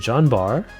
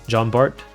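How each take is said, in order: First: The name ends without a T sound. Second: The name ends with a T sound. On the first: The speaker calls it right. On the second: The speaker calls it wrong.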